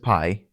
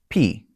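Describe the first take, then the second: First: The vowel sounds like 'eye', as in 'pie'. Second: The vowel sounds like 'ee', as in 'pee'. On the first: The speaker calls it wrong. "everybody says pi, it's not" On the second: The speaker calls it right. "Pronounced like P"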